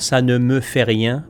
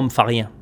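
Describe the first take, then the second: First: Every word of the phrase is fully pronounced. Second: The phrase is contracted, dropping its first words. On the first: "disons que moi, ça ne me fait rien" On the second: "par chez nous, c'est « moi, me fait rien ». On contracte"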